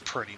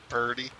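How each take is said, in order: First: The word has a crisp t sound. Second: The word has a soft d sound.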